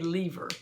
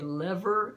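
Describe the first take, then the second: First: Said with a Northern US regional pronunciation. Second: Said with a Southern US regional pronunciation. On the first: "up north and on T V they say lever" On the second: "In the South we say lever"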